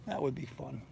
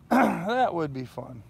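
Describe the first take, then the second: First: Said in the usual way. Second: Slow drawn-out repeat. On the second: Real, not acted.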